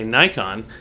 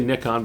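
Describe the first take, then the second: First: Nikon is said the North American way. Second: Nikon is said the non-North American way.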